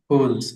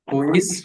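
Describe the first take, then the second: First: It is said as one contracted word. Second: It is said as two separate words.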